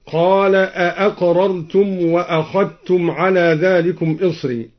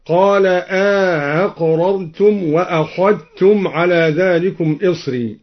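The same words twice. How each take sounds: First: Said in the usual way. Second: أأقررتم opening on a long aa, gliding without a second glottal stop; eased second hamza. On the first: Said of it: "قرأ الدوري". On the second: Shown as a demonstration. Teacher showing al-Duri's reading, أأقررتم with inserted long a. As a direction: slowly stretch the first a of أأقررتم, soften the next hamza. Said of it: "بتسهيل الهمزة الثانية مع إدخال ألف بينها وبين الأولى".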